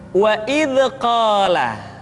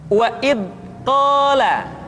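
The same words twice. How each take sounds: First: The dh sound is bounced with an echo. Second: The dh sound is cut off and held. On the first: "kesalahan kedua ... dipantulkan" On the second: "suara yang seringkali tertahan"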